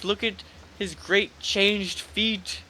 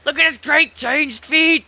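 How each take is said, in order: First: It is read in a plain reading voice. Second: It is read in a dramatic character voice. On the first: The speaker calls it wrong. "you gotta work on your, your character voice" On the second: The speaker calls it right. "There you go"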